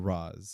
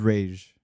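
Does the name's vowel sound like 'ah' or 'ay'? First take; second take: ah; ay. First: The name is said with an 'ah' vowel. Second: The name is said with an 'ay' vowel. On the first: This pronunciation came from a later film. "Batman Begins that changed it to Roz" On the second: This is the original pronunciation. "the correct is Rage"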